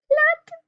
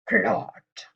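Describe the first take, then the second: First: It is said in a mouse voice. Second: It is said in a lion voice.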